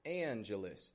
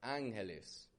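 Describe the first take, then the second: First: It is pronounced the American English way. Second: It is pronounced the Spanish way. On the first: "an English speaker would say" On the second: "In Spanish, of course, it would be"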